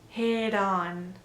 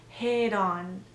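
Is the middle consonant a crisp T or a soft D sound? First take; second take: soft D; soft D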